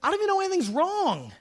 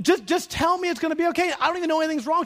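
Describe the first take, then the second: First: High, baffled protest; mock-baffled husband, pitched up. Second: Mock husband. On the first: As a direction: protest that you had no idea. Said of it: "I'd be like".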